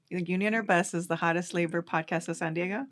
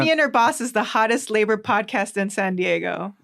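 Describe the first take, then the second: First: It ends rising, like a question. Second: It ends falling, like a statement.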